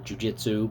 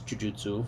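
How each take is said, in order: First: It is pronounced in the common anglicized way. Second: It is pronounced in the Japanese way. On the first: This is how people say it now. "I guess they say now Jujitsu" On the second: This is the original Japanese form. "in Japanese Jujutsu"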